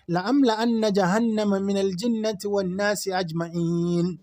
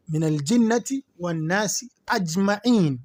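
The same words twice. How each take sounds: First: Quran recitation. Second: Said in the usual way. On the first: Real, not acted. Teacher reciting the verse to students in measured chant.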